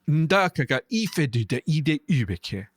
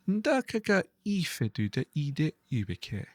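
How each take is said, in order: First: It is spoken in an angry, sharp voice. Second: It is spoken in a calm, neutral voice. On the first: The language sounds villainous. "more villainous by delivering it in a much angrier, sharper voice" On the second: The language sounds pleasant. "sound quite pleasant if I give a relatively neutral delivery"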